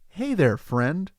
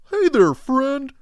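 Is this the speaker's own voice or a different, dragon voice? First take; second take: own voice; dragon voice. First: It is said in the speaker's own voice. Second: It is said in a different, dragon voice.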